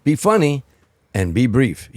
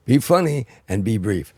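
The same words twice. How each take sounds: First: Quoted [name], higher and louder, punchy; [name]'s advice. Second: Said in the usual way. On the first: Retold or imitated. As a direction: hand down the rule like the boss, loud and high. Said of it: "he said". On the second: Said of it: "You know, I say".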